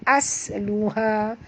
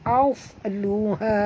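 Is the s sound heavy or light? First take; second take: light; heavy. First: The s is light, with a flat tongue. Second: The s is heavy, with a raised tongue. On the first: The speaker calls it wrong. "jangan baca asluha. Kalau as bunyi huruf sin" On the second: The speaker calls it right. "naikkan lidah perempuan ke atas"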